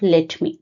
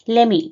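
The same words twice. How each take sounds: First: Both words are said fully and separately. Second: The words are merged into one short word. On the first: "instead of" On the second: "instead of"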